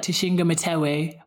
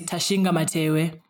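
First: Said in the usual way. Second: "Tashinga Matewe" with open a vowels, "Ta-shin-ga Ma-te-we"; Shona pronunciation. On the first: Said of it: "people would just generally say my name is". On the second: Shown as a demonstration. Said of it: "but my name is".

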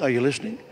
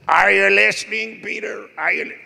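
First: Said in the usual way. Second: High, loud put-on preacher voice; Morris Cerullo impression. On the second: Preacher friend checks Peter is listening, loud imitation. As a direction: imitate a booming preacher demanding attention. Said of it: "He had a voice like".

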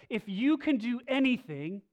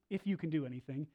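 First: Loud, raised cry of a desperate father; "If you can do anything" cried out loud and high; desperate plea. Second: Said in the usual way. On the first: Retold or imitated. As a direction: plead with him, voice up. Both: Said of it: "he comes to Jesus and he says".

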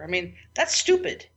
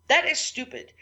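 First: Said in the usual way. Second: "That" hit hard and high; stress on That. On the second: Real, not acted. To her listeners, scolding herself, "That" stressed high. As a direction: repeat it, punching "That" up high in pitch.

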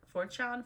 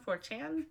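First: "chan" with an open ah, like "chahn"; trying a pronunciation. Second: "chan" with a short a, as in "can"; alternative pronunciation. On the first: Reader unsure of the site's name, "chan" said as "chahn". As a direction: say "chan" to rhyme with "con". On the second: Reader querying the site's name, "chan" rhyming with "man". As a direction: say "chan" to rhyme with "man", rising. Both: Shown as a demonstration.

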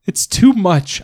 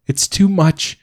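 First: Even higher, louder sob on "too"; the repeat breaks further into a sob; crying harder. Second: High, tearful wail on "too"; crying. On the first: Mother breaking down to her husband, higher sob. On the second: Mother overwhelmed to her husband, high tearful wail. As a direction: let the tears push "too" up high. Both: Acted.

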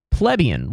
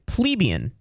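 First: Plebeian said as PLEB-ee-un with a short e; second try at the word. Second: Plebeian said as plee-BEE-un with a long ee; first try at the word. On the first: Comic corrects himself, Plebeian as PLEB-ee-un. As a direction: Plebeian starting like pleb, stress on the first syllable. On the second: Comic doubting his own word, says plebeian as plee-BEE-un. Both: Shown as a demonstration. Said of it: "correct way to pronounce that is".

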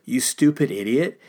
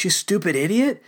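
First: Said in the usual way. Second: Higher, scornful jab of an insult; mock contempt. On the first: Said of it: "in our day and age would be like". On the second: Preacher acting out what we are tempted to say, mock scorn. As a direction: sneer it like you mean the put-down. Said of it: "we're tempted to say those things".

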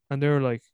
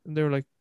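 The two takes are said the same way.

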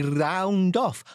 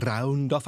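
First: Said in the usual way. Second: "round off" with a trilled rolled R. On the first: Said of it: "I had to say that right". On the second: Shown as a demonstration. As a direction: roll the R in "round off" hard. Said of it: "I'm rolling my R's".

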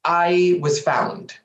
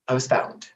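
First: Said in the usual way. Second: Whisper. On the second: Shown as a demonstration.

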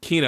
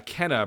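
First: "Kena" with a long ee in the first syllable; corrected pronunciation. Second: "Kenna" with a short e in the first syllable; mispronounced name. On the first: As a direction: say "Kena" as KEE-nah, taking the correction. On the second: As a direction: say "Kenna" as if it rhymed with henna. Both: Real, not acted. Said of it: "It's actually pronounced Kena".

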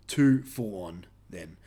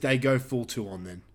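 First: "Too full on" said slowly and lower as a correction; slow careful correction. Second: Said in the usual way. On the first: Shown as a demonstration.

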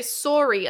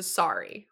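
First: "sorry" with a rounded "sore-ee" vowel; "sorry" rhyming with "story"; Canadian sorry. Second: "sorry" with an open "sah-ree" vowel; "sorry" rhyming with "starry". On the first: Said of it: "Are you from Canada or Minnesota". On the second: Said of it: "as opposed to sorry". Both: Shown as a demonstration.

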